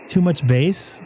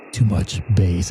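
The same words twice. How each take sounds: First: Said in the usual way. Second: Much lower, boomy bass-heavy voice; deep bassy voice. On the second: Shown as a demonstration. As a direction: drop it low, like a speaker with too much bass.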